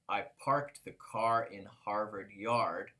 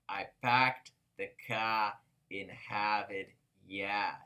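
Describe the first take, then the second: First: It is said in a general American accent. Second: It is said in a Boston accent. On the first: "when they want to say" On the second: "in Boston, people talk differently. They have uh, funny accents"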